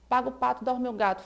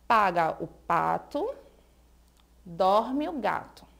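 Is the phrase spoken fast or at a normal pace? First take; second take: fast; normal. First: It is spoken very quickly. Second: It is spoken at a normal, unhurried pace.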